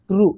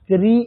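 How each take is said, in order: First: The syllable ends in a vowel near oo. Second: The syllable ends in a clear ee vowel. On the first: The speaker calls it right. "উকার এবং রিকার, এই দুটোর মধ্যবর্তী একটা উচ্চারণ।" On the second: The speaker calls it wrong. "ক্রি, এরকম না।"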